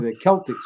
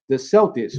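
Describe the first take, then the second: First: The word begins with a k sound. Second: The word begins with an s sound. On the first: This is the proper way to say the name. "would be the, the right pronunciation" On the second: This is how the team's name is commonly said. "calling themselves the Celtics"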